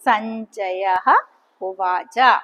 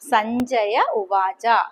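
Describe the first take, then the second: First: A breathy h sound ends the first word. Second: No h sound is heard between the words. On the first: This is the separated form with the ending restored. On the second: This is the joined form used in the verse.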